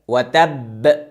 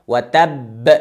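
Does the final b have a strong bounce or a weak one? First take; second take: strong; strong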